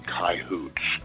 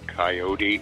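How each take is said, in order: First: It is said the cowboy way. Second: It is said the Eastern US way. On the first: The speaker is a real cowboy. "the real cowboys say coyotes" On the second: The speaker is from the eastern US. "Guys from back east say coyote"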